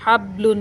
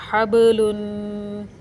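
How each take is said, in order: First: हबलुन with a dead, flat बा and no bounce; without qalqala. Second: हबलुन with the बा bounced in a slow echoing release; qalqala on the ba. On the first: Teacher shows the wrong हबलुन, बा without the bounce. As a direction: clip हबलुन so the बा does not rebound. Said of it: "हबलुन नहीं पढ़ेंगे इसको". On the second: Teacher demonstrates qalqala in हबलुन, slow bounce on बा. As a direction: say हबलुन slowly, letting बा jolt and rebound. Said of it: "इसलिए इसको हिलाकर पढ़ा जाएगा". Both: Shown as a demonstration.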